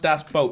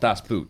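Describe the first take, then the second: First: The vowel sounds like the one in 'boat'. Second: The vowel sounds like the one in 'boot'. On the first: The speaker calls it right. "So it's pronounced das boat" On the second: The speaker calls it wrong. "not das boot"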